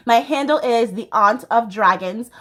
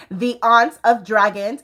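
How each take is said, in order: First: Said in the usual way. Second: The Aunt of Dragons spelled out slowly, each word apart; slowing down so The Aunt of Dragons is clear; said slower. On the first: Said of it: "Once again, slower". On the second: Shown as a demonstration. Repeating her Instagram handle slowly for viewers.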